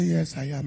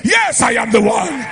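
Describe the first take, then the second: First: Soft, low, mild answer; too-calm voice. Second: Exaggerated shouted self-announcement; mock scream. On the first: Retold or imitated. Preacher answering a young lady on the road, calm. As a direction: answer quietly and calmly, without any projection. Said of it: "that voice is too calm". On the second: Shown as a demonstration. Preacher answering a lady on the road, mock screaming. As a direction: bellow it as a joke pulpit voice. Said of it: "be screaming".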